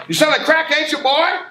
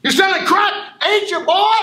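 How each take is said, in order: First: Loud, high accusing shout; mock teacher yelling at a student. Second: Even higher, louder accusing yell; teacher losing it at a student; furious shout. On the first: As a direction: bark the accusation at him. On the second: Acted. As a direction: scream it at him, escalating.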